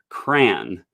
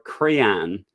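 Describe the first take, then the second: First: The word is said as one syllable. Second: The word is said with two syllables. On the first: "rhymes with man, one syllable" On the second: "most people pronounce it with two syllables"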